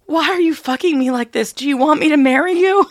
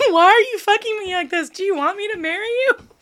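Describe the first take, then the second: First: High, loud, breathless question; excited girl. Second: Laughing. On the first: Retold or imitated. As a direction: blurt it out in a rush. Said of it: "A girl to a guy". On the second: Real, not acted. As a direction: quote squeezed out through laughter. Okay, that's funny.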